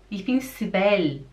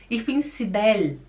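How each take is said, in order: Both takes have the same delivery.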